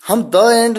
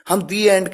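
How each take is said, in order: First: 'The' is said with a short 'thuh' vowel. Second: 'The' is said with a long 'thee' vowel. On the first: The speaker calls it wrong. "हम द end नहीं कहते हैं" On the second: The speaker calls it right. "हम दी एंड कहते हैं"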